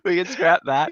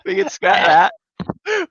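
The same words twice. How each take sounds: First: Said in the usual way. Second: Slow, high and loud; high drawn-out. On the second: Acted. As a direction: stretch it out up high. Repeats line, second take plain.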